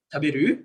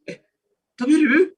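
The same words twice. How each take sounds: First: "Taberu?" with a simple rise at the end; mild rising question on "Taberu?"; questioning intonation. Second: High, louder, startled "Eh, taberu?"; shocked "Eh, taberu?" rising sharply; surprised question. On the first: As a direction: ask "Taberu?" as an ordinary question. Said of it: "itu berarti nanya gitu". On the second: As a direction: sound taken aback: "taberu?" jumping up high. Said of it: "itu kaget dia kok makan gitu ya". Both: Shown as a demonstration.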